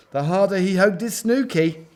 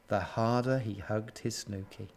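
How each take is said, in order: First: Higher, lilting storytelling; animated, higher-pitched narration; building up. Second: Soft, low storytelling; hushed, lonely narration; subdued. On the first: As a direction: lift the refrain as it snowballs. Refrain builds up again. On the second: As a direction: let it sink down quietly. Sad refrain, first time round. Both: A narrator's reading.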